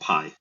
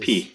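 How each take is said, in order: First: The word is said with an 'eye' vowel. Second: The word is said with an 'ee' vowel. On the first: The speaker calls it wrong. "You're just mispronouncing it" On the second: The speaker calls it right. "I say it the Greek way"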